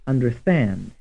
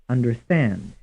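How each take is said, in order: The two takes are said the same way.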